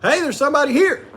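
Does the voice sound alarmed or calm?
alarmed. It is said in an alarmed, urgent voice. There is an intruder to fear. The speaker calls it wrong. "which would cause somebody alarm"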